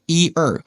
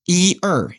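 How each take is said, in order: Both takes have the same delivery.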